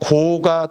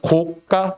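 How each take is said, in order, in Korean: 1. 둘째 음절은 평음으로 시작합니다. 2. 둘째 음절은 경음으로 시작합니다. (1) "고가 도로 그럴 때는 돼인 소리 발음이 없이" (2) "값이 비싼 건 고가 이렇게 되겠지"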